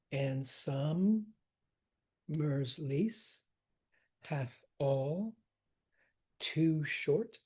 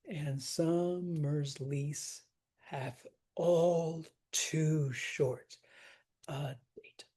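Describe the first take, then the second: First: Long pauses between "And summer's", "lease", "hath all", "too short"; slow foot-by-foot scansion, halting after "summer's", "lease" and "all"; separated feet. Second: Very slow line with "all too short" drawn out, then a hushed "a date"; stress on TOO. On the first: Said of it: "separate the feet". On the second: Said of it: "you wanna hit that too". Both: Shown as a demonstration.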